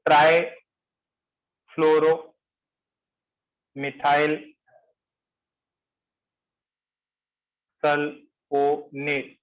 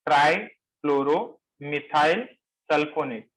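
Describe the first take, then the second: First: ट्राईफ्लोरोमिथाइल very slow with long gaps inside, then sulfonate broken up; syllable-chunk dictation. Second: ट्राईफ्लोरोमिथाइल slow in short chunks, each lifting, then sulfonate falling; measured repetition. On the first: Teacher introducing a long compound name to the class, very slow dictation. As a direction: stretch the long name out piece by piece. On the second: Teacher repeating the compound name for the class, measured chunks. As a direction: repeat the long name slowly but steadily. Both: Shown as a demonstration.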